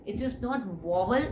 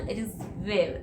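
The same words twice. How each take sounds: First: Vowel said as it should not be, slowly; teacher shows the wrong vowel; wrong pronunciation. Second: Vowel said the right way, softer; teacher gives the correct vowel; correct pronunciation. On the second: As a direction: show the proper way to say vowel. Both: Shown as a demonstration.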